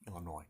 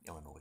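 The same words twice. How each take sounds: First: The final S sound is silent. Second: The final S sound is pronounced. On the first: The speaker calls it right. "There's no S at the end" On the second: The speaker calls it wrong. "not Illinois"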